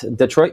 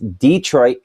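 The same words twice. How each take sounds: First: The stress is on the second syllable. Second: The stress is on the first syllable. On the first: It names the city in Michigan. "It's Detroit, Michigan" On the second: It names the town in Alabama. "it's the heavy emphasis on the first first okay. syllable"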